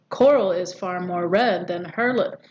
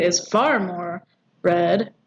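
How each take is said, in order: First: "far more" passed over without extra weight; even verse line, no punch on "far more"; far more unstressed. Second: "far" leaned on and stretched; slow down and weight "far", pause before "red"; measured scansion stressing "far". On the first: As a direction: keep "far more" light, moving on to "red". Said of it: "you could argue that they're both unstressed". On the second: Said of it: "this here arguably is stressed". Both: Shown as a demonstration.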